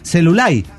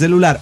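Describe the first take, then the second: First: The word ends with an i sound, not r. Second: The word ends with a clear r sound. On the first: This is how rural Cibao locals speak. "los lugareños hablan con la I intercalada al final de las palabras" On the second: This is the usual standard form. "en lugar de celular"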